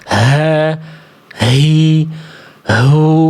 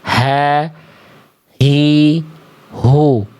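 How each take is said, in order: First: The h is heavy, breathy and overdone. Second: The h is light, from deep in the throat. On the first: The speaker calls it wrong. "Gak perlu berlebihan dibaca" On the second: The speaker calls it right. "Di sini H besar dilafalkan"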